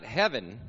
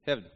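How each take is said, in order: First: Said in the usual way. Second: "heaven" squashed into one syllable, like "hev'n"; Texan shortened word. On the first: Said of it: "it's not heaven". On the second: Shown as a demonstration. Preacher teaching Texan talk, one-syllable "heaven". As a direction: swallow the second vowel of "heaven", Texan-style. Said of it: "two syllables into one".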